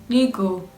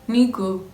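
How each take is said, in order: First: The first vowel sounds like 'ee'. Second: The first vowel sounds like 'ee'.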